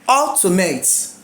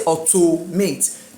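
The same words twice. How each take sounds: First: The stress is on the third-to-last syllable. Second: The stress is on the second-to-last syllable. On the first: The speaker calls it right. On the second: The speaker calls it wrong.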